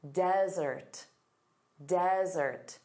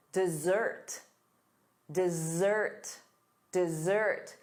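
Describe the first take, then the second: First: DEsert, stress the first syllable. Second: DesSERT, stress the second syllable. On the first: Teacher modeling desert for students, first syllable stressed. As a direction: say desert as DEZ-ert, weight up front. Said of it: "the syllable stress is on the first sound". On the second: Teacher modeling dessert for students, second syllable stressed. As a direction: say dessert as diz-ZERT, weight at the end. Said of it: "The syllable stress is on the second syllable". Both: Shown as a demonstration.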